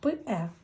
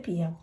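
First: The vowel follows the consonant without a glide. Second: The vowel is preceded by a y-glide. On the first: The speaker calls it right. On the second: The speaker calls it wrong. "Не п'є"

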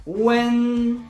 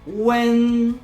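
First: The pitch stays high, level and long. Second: The pitch stays high, level and long.

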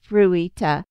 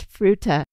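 First: The name is said with Japanese-like vowels. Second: The name is said with plain English vowels. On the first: The speaker calls it wrong. "I wanted to pronounce it like you would in Japanese" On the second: The speaker calls it right. "it's Fruita"

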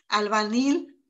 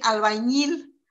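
First: The middle consonant is a plain n sound. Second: The middle consonant is a ny sound. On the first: This is how many people actually say it. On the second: This is the form people do not say.

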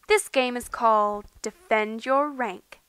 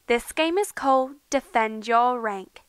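First: It is spoken in an American accent. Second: It is spoken in a British-style accent. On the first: "Now I'm going to do my American accent" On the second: "that was my British accent, or Australian"

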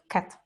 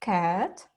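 First: The vowel is short and plain. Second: The vowel is drawn out and long. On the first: The speaker calls it wrong. "не просто cat" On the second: The speaker calls it right. "вимовляються вони як продовжене таке Е"

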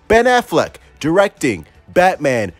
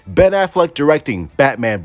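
First: The words are said at loud volume. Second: The words are said at normal volume. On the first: "Let me say it louder for the people in the back" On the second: "Let me repeat that one more time"

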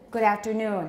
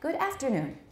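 First: The stress in 'afternoon' falls on 'noon'. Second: The stress in 'afternoon' falls on 'aft'. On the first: The speaker calls it right. "good afternoon should be?" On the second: The speaker calls it wrong. "that's a common Taiwan English mistake"

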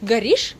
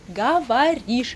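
First: The word is said in a shortened form. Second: The word is said in its full form. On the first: "Горишь — значит говоришь" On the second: "значит говоришь"

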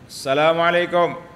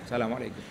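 First: The greeting is said in a loud voice. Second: The greeting is said in a soft voice. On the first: The greeting should surely be heard. "dianjurkan untuk menguatkan suara dalam mengucapkan salam" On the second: Sleeping people nearby should not be woken. "kita pun perlahan je"

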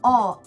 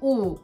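First: The vowel lies between Russian o and u. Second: The vowel is a closed Russian u. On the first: The speaker calls it right. "много моих русских друзей не могут произносить слова «о»" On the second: The speaker calls it wrong. "либо «у»"

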